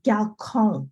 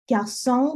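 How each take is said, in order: First: Galcon with a k in place of the s; wrong-way demo, galcon with hard k. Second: Garçon with the ç said as s; French Garçon with softened C; soft C. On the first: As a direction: say "galcon", garçon as if it had no cedilla. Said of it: "it'd be pronounced galcon". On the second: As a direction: model "Garçon" slowly apart, s in the middle. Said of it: "soften that C". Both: Shown as a demonstration.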